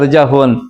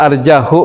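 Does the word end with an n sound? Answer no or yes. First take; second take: yes; no. First: The word ends with an added n sound. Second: The word ends in a plain vowel, without n. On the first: The speaker calls it wrong. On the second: The speaker calls it right.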